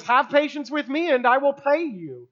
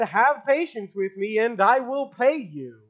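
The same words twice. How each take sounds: First: Higher, imploring plea; pleading. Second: Said in the usual way. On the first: A narrator's reading. Servant imploring his fellow servant, higher pleading. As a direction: implore him, voice lifted. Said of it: "pleads and implores and says". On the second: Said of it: "the same servant had said".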